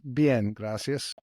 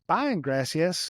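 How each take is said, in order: First: It is said with a native Mexican Spanish accent. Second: It is said with a heavy redneck American accent.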